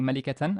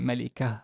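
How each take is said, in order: First: The word ends with a full -tan ending. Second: The word ends softly with an h sound. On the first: The word is said in the middle of speech. "instead of saying malikatan" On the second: The word comes at a stop, like after a full stop. "the sound changes to h basically"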